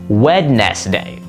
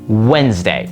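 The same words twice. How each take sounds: First: Every letter is sounded, as it is spelled. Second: The word is said condensed, with fewer syllables. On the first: The speaker calls it wrong. "it looks like it's pronounced Wednesday" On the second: The speaker calls it right. "The way you actually pronounce it is much more condensed"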